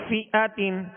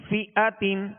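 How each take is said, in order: The two takes are said the same way.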